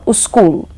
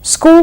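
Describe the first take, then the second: First: A u vowel comes before the s. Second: It starts directly with the s-k cluster.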